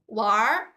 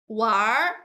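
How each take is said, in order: First: It ends with an r sound, Beijing style. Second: The same.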